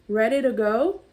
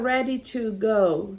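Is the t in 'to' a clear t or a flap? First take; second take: flap; clear t. First: The t in 'to' sounds like a quick r. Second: The t in 'to' is a clear t. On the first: "a gente fala o T com som de R" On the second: "tá certo também"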